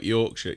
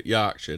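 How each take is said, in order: First: Said in the usual way. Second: "Yorkshire" as "Yarkshire", Yorkshire accent. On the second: Shown as a demonstration. Comparing accents with co-hosts, "Yorkshire" in a Yorkshire accent. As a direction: put a broad Yorkshire vowel on "Yorkshire".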